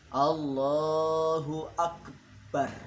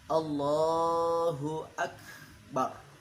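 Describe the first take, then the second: First: The b in akbar is doubled and held. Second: The b in akbar is a single plain b. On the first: The speaker calls it wrong. "Ba-nya ditasydidkan" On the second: The speaker calls it right. "yang benar"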